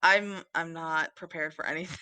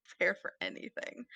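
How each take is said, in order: First: Said in the usual way. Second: Much softer, breathy repeat of "Prepared for anything"; whispered echo. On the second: Real, not acted. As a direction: mutter it again to yourself. Echoes own words under breath.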